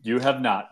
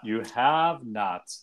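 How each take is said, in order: First: "have" stressed at normal speed; firm denial, leaning on "have"; emphatic agreement. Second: "have" stretched out, very slow; slow emphatic repeat. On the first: Co-host answering the character's question, stress on "have". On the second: Co-host repeating the verdict on the character, drawn-out "have". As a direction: draw out "have" for deliberate emphasis. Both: Real, not acted.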